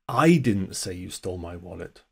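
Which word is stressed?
I. The stress falls on the word 'I'. Someone else said it. "Someone else said it. Wasn't me. I didn't say it"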